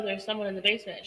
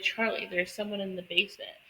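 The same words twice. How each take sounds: First: Insistent rush. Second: Said in the usual way. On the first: Retold or imitated. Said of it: "She's like". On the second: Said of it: "she's like".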